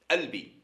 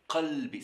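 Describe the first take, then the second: First: The word begins directly with the vowel sound. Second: The word begins with a deep throat q sound. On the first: This is how one particular region says it. "À Tlemcen, ils disent albi" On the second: This is the common form across regions. "Toutes les régions en Algérie disent qalbi"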